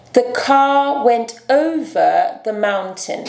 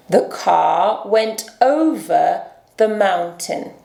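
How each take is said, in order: First: The car went over the mountain with car said kah, R dropped; British silent R. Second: The car went over the mountain with the R in car sounded, slowly; American R. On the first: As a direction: drop the R in car, slowly. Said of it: "nós vamos ignorar esse som". (car sem R, britânico, devagar) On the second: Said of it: "vamos ver um exemplo". (car com R americano, devagar) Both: Shown as a demonstration.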